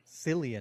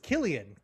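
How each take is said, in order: First: The name begins with a soft S sound. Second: The name begins with a hard K sound. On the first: The speaker calls it wrong. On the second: The speaker calls it right. "Killian is how they pronounce it"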